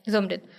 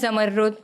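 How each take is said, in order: First: It is said simply, ending in a short 'rit'. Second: It has a doubled, held 'rr' sound. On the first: This is how people from her hometown say it. "वहाँ के लोग simply ले लेते हैं" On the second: This is how Pashto speakers say it. "Pashto जो है ... सबसे अच्छा प्रोनाउंस करते हैं"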